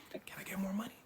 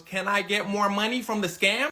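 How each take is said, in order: First: Whispered, sneaky question; hushed request. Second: Raised-voice question; loud repeat. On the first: Partner quietly asking Hush Puppy for more, whispered. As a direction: slip it in under your breath. Partner first asks under breath. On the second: Partner repeating himself after "What?", loud and plain-spoken. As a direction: say it out loud for someone who missed it. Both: Retold or imitated.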